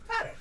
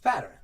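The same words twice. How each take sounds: First: It is said mocking a white man's accent. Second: It is said in his usual Black accent.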